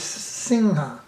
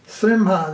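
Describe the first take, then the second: First: "Singha" with ng before ha; Bengali pronunciation. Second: "Srimha" with a clear M before ha; unused pronunciation. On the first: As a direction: say "Singha" with ng in place of M. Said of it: "they say S-, Singha". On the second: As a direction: close the lips for M in "Srimha". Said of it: "They don't say Srimha". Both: Shown as a demonstration.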